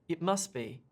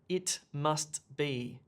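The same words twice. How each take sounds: First: The t sound in must is dropped. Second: The t sound in must is clearly pronounced. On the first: The speaker calls it right. "I say" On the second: The speaker calls it wrong. "I don't say"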